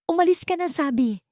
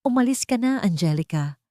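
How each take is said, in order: First: Much higher, insistent dismissal; narrated shout, high and urgent; shouted order. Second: Higher start, dropping to an even finish; restrained cold order; cold, emotionless. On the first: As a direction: order her away in a raised pitch. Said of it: "sa pagsigaw niya". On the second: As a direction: dismiss her coldly, without emotion. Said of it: "Ang boses ay malamig at walang emosyon". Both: A narrator's reading.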